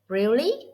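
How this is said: It sounds surprised, with a sharp rise. The speaker is astonished. "Imagine you are surprised"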